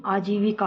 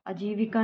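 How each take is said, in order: First: आजीविका opening on long "aa"; correct pronunciation. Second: आजीविका opening on short "a"; wrong pronunciation. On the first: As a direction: give आजीविका a long first vowel. (आजीविका का पहला "आ" लंबा बोलें) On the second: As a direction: clip the first vowel of आजीविका to a short a. (आजीविका का पहला "आ" छोटा बोलें) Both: Shown as a demonstration. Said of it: "आजीविका होता है".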